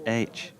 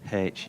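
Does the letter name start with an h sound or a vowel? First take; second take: vowel; h sound. First: The letter name starts with a vowel sound. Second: The letter name starts with an h sound. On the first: The speaker calls it right. "you said H, A I T C H" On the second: The speaker calls it wrong. "you didn't actually say H"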